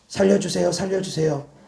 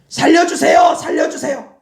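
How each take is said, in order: First: It is said quietly, without force. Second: It is shouted loudly with full force.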